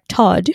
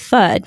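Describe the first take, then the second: First: The word begins with a hard t sound. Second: The word begins with a soft th sound. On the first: The speaker calls it wrong. "sometimes we don't say our THs" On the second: The speaker calls it right. "if we want to say third"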